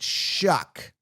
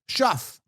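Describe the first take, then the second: First: The name ends with a k sound. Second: The name ends with an f sound. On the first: This is how others say the name. "apparently they pronounce it Shuck" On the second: This is how the spelling suggests it. "So I look at it as Tyler Shuff"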